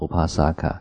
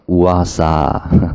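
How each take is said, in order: First: Every consonant is pronounced clearly. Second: The middle consonants are dropped and sound mumbled. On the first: This is the refined literary form. "我们梵语叫乌帕萨卡" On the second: This is the common vernacular form. "在俗语里面呢，他就念什么乌阿萨，就好像含卤蛋这样子"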